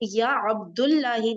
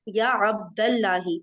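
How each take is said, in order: First: The vowel after Abd is u. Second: The vowel after Abd is a. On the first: The speaker calls it wrong. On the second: The speaker calls it right.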